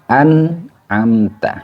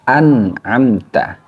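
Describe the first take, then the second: The two takes are said the same way.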